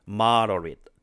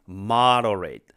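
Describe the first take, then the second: Both takes have the same delivery.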